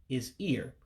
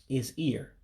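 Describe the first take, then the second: Both takes have the same delivery.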